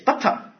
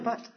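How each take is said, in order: First: An extra vowel follows the final consonant. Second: The word ends cleanly on the final consonant. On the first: "It's butter" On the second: "it's never but"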